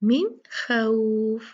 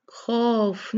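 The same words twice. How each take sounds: First: मिन खौफ slow with खौफ opened to khauf; slow careful min khauf; correct recitation. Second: खौफ said short and flat as khof; quick flat khof; wrong reading. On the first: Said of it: "ये क्या है?". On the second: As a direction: clip खौफ to a plain khof. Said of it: "खौफ नहीं है". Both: Shown as a demonstration.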